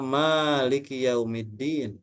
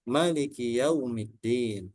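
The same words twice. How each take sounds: First: The first vowel of Maliki is long. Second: The first vowel of Maliki is short. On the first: "ini kiroat yang populer" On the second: "Maknya tidak panjang"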